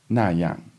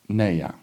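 First: The first syllable is said with a plain 'na'. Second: The first syllable is said with a 'nei' sound.

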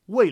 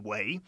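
First: The syllable is said with a falling tone. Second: The syllable is said with a rising tone. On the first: "wei for sure will be fourth tone" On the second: "It should be Yi Wei"

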